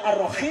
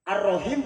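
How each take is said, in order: First: The middle consonant is a rough scraping kh. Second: The middle consonant is a soft breathy h. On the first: The meaning changes into something else. The speaker calls it wrong. "jatuh huruf kita kepada huruf kha" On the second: It means the Most Merciful. The speaker calls it right. "Ar-Rahim penyayang"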